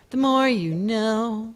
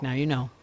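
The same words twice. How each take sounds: First: Higher, slow, sung-out TV slogan voice; TV psa slogan. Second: Said in the usual way. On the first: Retold or imitated. Streamer joking he's a news network, slow PSA slogan. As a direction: draw out "more" like a network PSA tag line. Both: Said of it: "I'm basically N B C".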